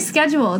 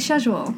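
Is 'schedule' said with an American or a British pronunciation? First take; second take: American; British. First: It is said with an American pronunciation. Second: It is said with a British pronunciation. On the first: "They don't say schedule" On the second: "They say schedule"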